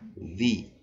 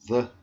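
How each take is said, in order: First: 'The' is said in its before-vowel form. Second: 'The' is said in its everyday form. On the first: "como vem antes de um som vocálico ... vira the" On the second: "a pronúncia do the"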